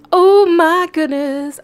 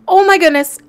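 First: Loud, high and slow, stretched out; slow squeal of delight; drawn-out excitement. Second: Loud, high, quick burst of delight; squealing with joy; excited shriek. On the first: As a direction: savour each word, thrilled. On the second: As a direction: blurt it out thrilled. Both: Real, not acted. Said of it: "I am so excited!".

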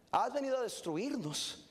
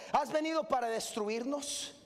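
First: Laughing repeat. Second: Said in the usual way. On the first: Shown as a demonstration. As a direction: laugh at the demons' question. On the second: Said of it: "repeated with a laugh".

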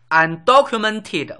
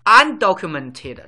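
First: Undocumented spelled out slowly and loudly, syllable by syllable; slow, clear model word. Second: Undocumented drawn out slowly and loudly a second time; slow, clear model word. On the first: Teacher slowly modelling Undocumented for learners, drawn-out enunciation. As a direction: stretch out Undocumented for students. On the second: Teacher repeating Undocumented slowly for the class, drawn-out enunciation. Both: Shown as a demonstration. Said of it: "teaching vocabulary".

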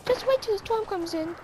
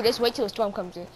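First: High squeaky threat; high-pitched mock menace; high Elmo-like voice. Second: Said in the usual way. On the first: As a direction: warn him in a puppet voice. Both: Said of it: "Do I sound like Elmo?".

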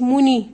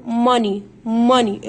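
First: موني with a round "o"; wrong pronunciation. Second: ماني as "MUH-nee"; short open vowel in ماني, no o; silent O. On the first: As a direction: say "MOH-nee", the O sounded. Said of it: "ما قلتش موني". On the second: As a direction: model "MA-nee" firmly. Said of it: "الاو لا تنطق". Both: Shown as a demonstration.

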